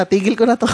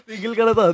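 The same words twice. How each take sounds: First: Mock-serious quitting line, said straight; deadpan joke. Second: Laughing repeat. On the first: Host jokes to guests about quitting, deadpan. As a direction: pretend to retire, keeping a straight face. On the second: Pretend. Host repeats his quitting joke to guests, laughing. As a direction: say it again through a laugh.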